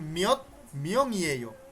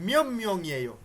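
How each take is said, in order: First: The first word ends with a t sound. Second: The first word ends with an m sound. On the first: This is how the learner expects it from the spelling. "আপনার জানার মতে এটা হওয়ার কথা ছিল" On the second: This is how native speakers actually say it. "ওদের কথা শুনবেন, আপনি শুনবেন"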